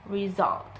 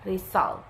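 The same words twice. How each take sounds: First: The middle consonant is a buzzing 'z' sound. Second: The middle consonant is a hissing 's' sound. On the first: The speaker calls it right. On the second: The speaker calls it wrong.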